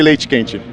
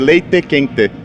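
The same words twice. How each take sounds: First: It is said in a São Paulo accent. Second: It is said in another Brazilian regional accent.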